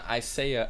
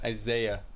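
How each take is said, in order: First: The middle consonant is a hissing S sound. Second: The middle consonant is a buzzing Z sound. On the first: The speaker calls it wrong. "It's not Isaiah" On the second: The speaker calls it right. "The S is more like a Z sound"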